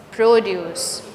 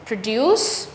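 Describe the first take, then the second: First: Produce as PRO-duce, the first syllable stressed. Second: Produce as pro-DUCE, the second syllable stressed and rising. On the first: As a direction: hit the start of produce, then let it fall. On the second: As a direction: stretch the end of Produce, slowly. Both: Shown as a demonstration. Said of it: "It changes the part of speech".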